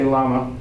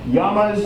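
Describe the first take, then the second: First: The word has an English-style pronunciation. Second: The word has a Spanish-style pronunciation. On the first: The speaker calls it wrong. "sorry gringos, you don't say llama" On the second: The speaker calls it right. "it's llamas"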